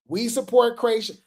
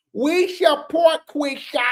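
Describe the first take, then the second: First: Said in the usual way. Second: Slow, higher put-on preachy voice; Rock Tar voice. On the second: Shown as a demonstration. Mocking the fans' flyer for viewers, in a slow Rock Tar voice. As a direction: drag out the slogan like a devoted fan. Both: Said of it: "I gotta do this in my Rock Tar voice".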